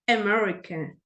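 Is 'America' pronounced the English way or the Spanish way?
English. It is pronounced with English vowels and stress. The speaker calls it right.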